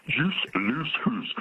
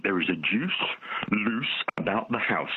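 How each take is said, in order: First: Put-on slow, broad Scottish accent on "Juice loose hoose". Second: Slow, drawn-out advert line; slow advert jingle. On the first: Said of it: "In a Scottish accent". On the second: Retold or imitated. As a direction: stretch out "loose about the house" like an old sweet advert. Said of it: "and it went".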